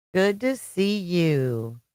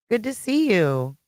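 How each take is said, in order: First: Slow drawn-out greeting. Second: Said in the usual way. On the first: Real, not acted. Greeting repeated slowly.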